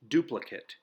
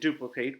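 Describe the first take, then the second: First: It has the adjective pronunciation of the word. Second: It has the verb pronunciation of the word. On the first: It means exactly like something else. "The adjective form is pronounced differently. It's pronounced duplicate" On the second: It means to copy exactly. "The verb form means to copy exactly"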